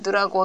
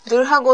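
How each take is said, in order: First: The h sound is dropped and linked. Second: The h sound is clearly pronounced. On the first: "早く言うとなくなっちゃう" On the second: "ゆっくり言うと、火の音がよく出てきて"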